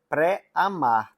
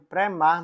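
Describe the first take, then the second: First: The word is said with an 'a' before 'mar'. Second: The word is said without an 'a' before 'mar'. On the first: The speaker calls it right. "A linha pré-amar" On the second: The speaker calls it wrong. "eu acho que eu pronunciei errado"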